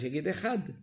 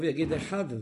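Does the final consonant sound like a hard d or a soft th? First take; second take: hard d; soft th. First: The final consonant is a hard d sound. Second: The final consonant is a soft th-like sound. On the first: "אם כמה לא יודעים לבטא את הדלת, יגיד אחד" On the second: "אבל אם יודע לבטא טוב, יגיד אחד"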